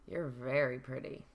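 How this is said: It is said in a suggestive, leering tone. The person is being treated as an object. The speaker calls it wrong.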